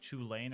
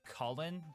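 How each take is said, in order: First: The name begins with a 'ch' sound. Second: The name begins with a 'k' sound. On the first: "some people who call it the Chew Lane" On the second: "I'm ninety-nine percent sure it's pronounced Cullen"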